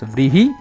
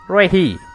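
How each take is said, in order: First: The word begins with a v-r cluster. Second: The word begins with a plain r sound. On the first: This is the original form of the word. "In Sanskrit it is known as vrihi" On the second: This is how a European would say it. "if an English or an European person pronounces this, it will become as rehi"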